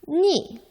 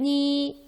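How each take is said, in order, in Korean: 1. 음높이가 높은 데서 낮게 급격히 떨어져요. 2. 음높이가 높고 평평하게 유지돼요. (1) "사성으로는" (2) "일성으로 표기하면"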